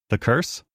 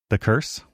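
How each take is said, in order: The two takes are said the same way.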